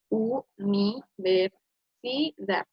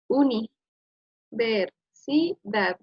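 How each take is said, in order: First: The opening 'u' and 'ni' are split apart. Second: The opening 'uni' is said as one chunk. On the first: The speaker calls it right. "decimos primero la U" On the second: The speaker calls it wrong. "como que algo ya suena raro"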